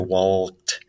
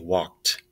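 First: The word is said with an audible L sound. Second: The word is said with no L sound. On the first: The speaker calls it wrong. "I don't say walked" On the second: The speaker calls it right. "I say walked. So the L is silent"

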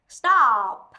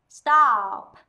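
The two takes are said the same way.

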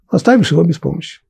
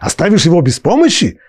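First: It is said with flat statement intonation. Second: It is said with rhetorical question intonation. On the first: You may leave him without help. "Так тоже может быть" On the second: Surely you would not leave him without help. "как Тора хочет, скорее всего, чтобы мы прочитали"

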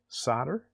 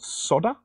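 First: It is said in a put-on American accent. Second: It is said in the speaker's own British accent.

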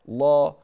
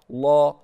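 Both takes have the same delivery.

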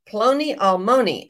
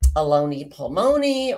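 First: The name begins with a 'pl' sound. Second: The name begins with an 'a' sound. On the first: The speaker calls it right. "So it's Ploni Almoni" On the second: The speaker calls it wrong. "I think I may have said Aloni Palmoni"

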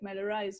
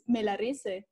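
First: The name is pronounced the English way. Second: The name is pronounced the Spanish way. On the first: "in English, it sounds good. It's like Melarise" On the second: "But in Spanish, it's Melarise"

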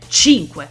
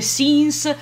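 First: The name is said as Italian 'chinkweh'. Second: The name is said like English 'sins'. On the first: The speaker calls it right. "da italiana, ... il suo nome si pronuncia cinque" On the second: The speaker calls it wrong. "i parlanti inglesi non riescono minimamente a pronunciare"

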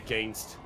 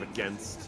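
First: The second syllable rhymes with 'gain'. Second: The second syllable does not rhyme with 'gain'. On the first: This is how the other person says it. The speaker calls it wrong. "You say against" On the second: This is how the speaker says it. The speaker calls it right. "instead of against"

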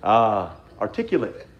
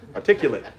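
First: It is said in a Southern drawl. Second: It is said in a neutral accent.

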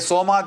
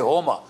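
First: The word begins with an S sound. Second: The word begins with an H sound. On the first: This is the Indian form of the word. "When we say Soma" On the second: This is the Persian form of the word. "you pronounce it as H"

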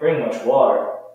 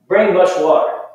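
First: It is said as a reproachful complaint. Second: It is said as a direct command. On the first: The speaker is saying someone did not bring much water. "it kind of sounds like I'm saying you didn't bring much water" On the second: The speaker is telling someone to bring water. "you could tell I'm saying bring it to me"

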